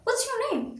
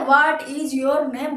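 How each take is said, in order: First: The word "is" is contracted to "what's". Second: The word "is" is said in full. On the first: The speaker sounds modern and professional. The speaker calls it right. "कितना professional लग रहा है" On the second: The speaker sounds old-fashioned. The speaker calls it wrong. "गलत है ना भाई"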